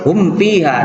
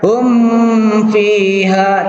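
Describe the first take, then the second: First: The m is short and clearly separate from f. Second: The m is held long and blurred into f. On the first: The speaker calls it right. "tapi dibaca jelas" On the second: The speaker calls it wrong. "Tidak dibaca hum fiha, tidak, tidak dibaca lama di situ"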